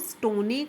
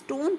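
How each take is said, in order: First: An extra vowel sound is added after the n. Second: The word ends on the n with no vowel. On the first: The speaker calls it wrong. "आप इसको स्टोने करके नहीं पढ़ रहे हैं" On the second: The speaker calls it right. "आप इसको स्टोन पढ़ रहे हैं"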